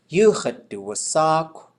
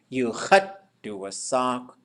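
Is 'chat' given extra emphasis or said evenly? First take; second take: evenly; emphasized. First: The syllable 'chat' gets no special emphasis. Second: The syllable 'chat' gets strong extra emphasis. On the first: The speaker calls it right. "when people say it, they should be saying" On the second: The speaker calls it wrong. "We put the emphasis on chat"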